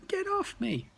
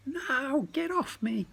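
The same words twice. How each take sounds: First: Even higher panicked squeal; frightened cry. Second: Very high panicked squeal; frightened cry. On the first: Crinklebutt struggles in the goblin's grip, shrill desperate squeal. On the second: Crinklebutt caught in the goblin's grasp, high frightened squeal. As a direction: struggle free, squealing in fright. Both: Acted.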